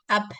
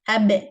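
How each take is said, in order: First: The final consonant is released as voiceless air. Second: The final consonant is voiced with a bounce. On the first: The speaker calls it wrong. "not just air, not like up, up. This is wrong" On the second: The speaker calls it right. "I open my lips with the voice from uh, the vocal cords; You kind of hear the bounce effect"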